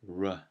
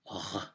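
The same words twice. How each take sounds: First: The R is made at the front of the mouth. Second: The R is made at the back, in the throat. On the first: "we'll say things like R" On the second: "in French, it comes more from the throat"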